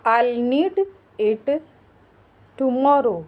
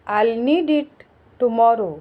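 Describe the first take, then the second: First: Halting pauses before "it" and "tomorrow"; chunked breakdown. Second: Said in the usual way. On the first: Shown as a demonstration. Teacher modelling English for learners, in separated pieces. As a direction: say "I'll need", pause, "it", long pause, "tomorrow".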